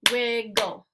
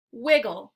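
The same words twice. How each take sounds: First: "Wiggle" split into two even beats; syllable by syllable. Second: Said in the usual way. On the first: Shown as a demonstration. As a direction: clap out both syllables of "Wiggle". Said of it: "clap the syllables out". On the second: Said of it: "I'll say the word".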